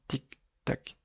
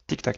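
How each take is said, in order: First: The ticking is said at a normal steady pace. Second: The ticking is said at a much faster pace. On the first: The indicator bulbs are all working. "généralement ça fait" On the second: A bulb has burned out. "clignotent beaucoup plus rapidement"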